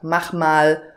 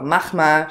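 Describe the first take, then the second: First: Both words are pronounced separately and in full. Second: The two words merge and a sound is dropped. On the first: "statt mach mal" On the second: "mach mal statt mach mal"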